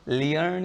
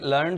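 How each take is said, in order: First: The vowel begins with an 'ee' glide. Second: The vowel is a plain 'er' sound. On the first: The speaker calls it wrong. "लियर्न या लेयर्न नहीं" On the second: The speaker calls it right. "ये लर्न शब्द है"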